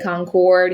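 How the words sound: It is said with a Southern US pronunciation. "we say Concord here in the South"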